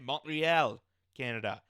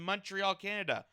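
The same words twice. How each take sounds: First: It is said with a French accent. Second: It is said with an English accent.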